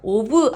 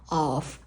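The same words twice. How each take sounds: First: It is split into two separate syllables. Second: It is said as one short syllable. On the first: The speaker calls it wrong. "하지 마세요" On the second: The speaker calls it right. "한 글자로 of, of, of 이렇게 해주세요"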